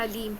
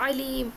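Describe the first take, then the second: First: علیم starting on a plain hamza a; alif pronunciation. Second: علیم begun with a squeezed throat ain; ain pronunciation. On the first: Teacher showing students the word spelt with alif, plain glottal onset. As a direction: say علیم with alif, keeping the throat relaxed. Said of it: "الف سے لکھا ہوا ہے". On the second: Teacher contrasting the second word for students, throaty ain onset. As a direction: say علیم with a pharyngeal ain at the start. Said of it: "عین اور ہمزہ کا فرق". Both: Shown as a demonstration.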